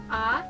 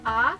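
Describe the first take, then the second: First: The pitch rises steadily from mid to high. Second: The pitch rises steadily from mid to high.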